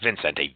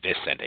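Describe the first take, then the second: First: The name has an extra n in the first syllable. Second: The name has no n in the first syllable. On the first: The speaker calls it wrong. "not Vicente" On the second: The speaker calls it right. "there's no first N there"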